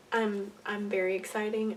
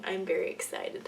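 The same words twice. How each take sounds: First: Says exciting instead of excited, a little fumbling; slip of the tongue. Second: Said in the usual way. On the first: Real, not acted. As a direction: trip over the word exciting.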